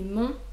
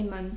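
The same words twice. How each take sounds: First: The vowel is nasal with no clear n sound. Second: The final n is clearly sounded as a consonant. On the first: This is how French speakers say it. "nous ça fait mon" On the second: This is how Spanish speakers say it. "eux ça fait mon"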